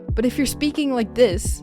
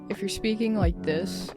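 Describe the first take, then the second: First: The voice is lively, energetic and enthusiastic. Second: The voice is flat, low-energy and sleepy. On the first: The viewer will stay. The speaker calls it right. "they're gonna want to stay" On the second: The viewer will leave. The speaker calls it wrong. "they might just click off immediately"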